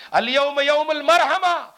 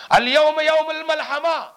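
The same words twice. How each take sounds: First: المرحمہ proclaimed loud and drawn out; slow, ringing correction landing on المرحمہ, with an R in its middle; stress on المرحمہ. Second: الملحمہ proclaimed loud, high and drawn out; slow, ringing cry ending on الملحمہ, with an L in its middle; stress on الملحمہ. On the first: Preacher giving the changed words of mercy, loud slow stress on المرحمہ. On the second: Preacher quoting Khalid's battle cry, loud slow stress on الملحمہ. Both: Retold or imitated. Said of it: "الفاظ کو بدل دیا".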